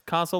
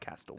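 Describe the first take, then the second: First: The first vowel is a long 'ah' sound. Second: The first vowel is a short 'a' sound. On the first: "like car sale" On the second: "like Castle"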